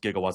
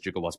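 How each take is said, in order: First: The word begins with a hard g sound. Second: The word begins with a j sound. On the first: The speaker calls it right. "He mispronounced gigawatts" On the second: The speaker calls it wrong. "as gigawatts"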